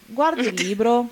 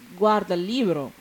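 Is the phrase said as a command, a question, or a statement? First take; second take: question; statement. First: It is said with a questioning tune. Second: It is said with a falling statement tune. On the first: It asks whether someone is looking at the book. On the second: Someone is reported as looking at the book.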